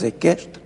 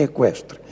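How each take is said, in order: First: "equestre" with silent u, as e-KESH-tre. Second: "equestre" with u sounded, as e-KWESH-tre; u pronounced. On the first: Linguist cites one variant, "equestre" said as e-KESH-tre. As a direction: say "equestre" with plain k, no w. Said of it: "equestre ou equestre". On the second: Linguist cites the other variant, "equestre" said as e-KWESH-tre. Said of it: "a pronúncia equestre". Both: Shown as a demonstration.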